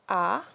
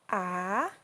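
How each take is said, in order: First: The pitch falls from high to low. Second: The pitch dips low and then rises. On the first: "the fourth tone, which is the falling tone" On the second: "the third tone, which we call the falling rising tone"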